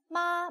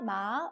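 First: The syllable is said with the first tone. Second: The syllable is said with the second tone. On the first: "1성" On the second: "2성"

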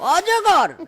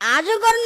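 First: The first vowel is a rounded 'o' sound. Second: The first vowel is an open 'a' sound. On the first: The speaker calls it right. "ঠিকভাবে বল" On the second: The speaker calls it wrong. "আজগর নয়"

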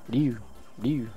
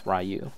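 First: The name is said with a Japanese pronunciation. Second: The name is said with an English pronunciation. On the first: This is how a Japanese speaker said it. "When I was dating a Japanese girl, ... she said it like Ryu" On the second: This is the speaker's usual way of saying it. "I'm gonna stick with Ryu"

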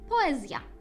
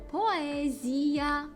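First: The i before the final a is weak. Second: The i before the final a is full and stressed. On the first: This is the Polish pronunciation. "поляки зовсім не кладуть такого акценту на оце і" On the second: This is the Ukrainian pronunciation. "В українській ми скажемо поезія"

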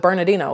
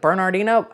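First: The R sound in the word is dropped. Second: The R sound in the word is pronounced. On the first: "that's how you hear it" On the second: "pronouncing the R, because that's how it's spelled"

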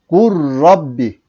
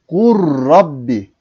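The two takes are said the same way.

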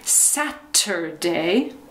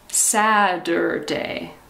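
First: The middle consonant is a clear T sound. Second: The middle consonant is a soft D sound. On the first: "the correct pronunciation is with T" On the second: "In the United States, we say Saturday. It sounds like a D"

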